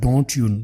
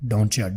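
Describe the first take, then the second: First: The two words are said fully and separately. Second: The words blend into one sound, doncha. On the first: "पूरा नहीं बोलेंगे" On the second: "simple और short करके बोलेंगे डोंचा"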